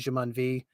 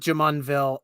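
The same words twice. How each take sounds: First: The name is said with a French pronunciation. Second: The name is said with an American English pronunciation. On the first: This is the original French form of the name. "if the French accent, it would have been" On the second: This is how locals say it. "So we call it Jumonville"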